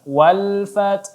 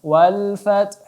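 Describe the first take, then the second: Both takes have the same delivery.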